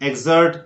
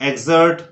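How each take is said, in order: Both takes have the same delivery.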